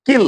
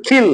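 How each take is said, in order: First: কিল with a plain k; unaspirated K. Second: খিল opening on a breath-puffed kh; aspirated K. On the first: Teacher naming the example word, plain k in কিল. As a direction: say কিল with no puff of air. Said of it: "কিলের কথা বলি". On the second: Teacher giving the correct version, aspirated kh in খিল. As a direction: say খিল with a puff of air after the k. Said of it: "সঠিক উচ্চারণ হলো". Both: Shown as a demonstration.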